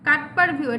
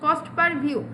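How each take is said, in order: First: The first word sounds like 'cut'. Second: The first word sounds like 'cost'. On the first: The speaker calls it wrong. "কাট পার না দিয়ে ভালো" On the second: The speaker calls it right. "কস্ট per view হচ্ছে ভালো উচ্চারণ"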